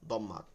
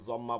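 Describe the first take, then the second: First: The word begins with a d sound. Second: The word begins with a j sound. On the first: The speaker calls it right. "কিন্তু উচ্চারণটা হচ্ছে" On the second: The speaker calls it wrong. "অনেকে জম্মা বলে, দতকে জত পড়ে"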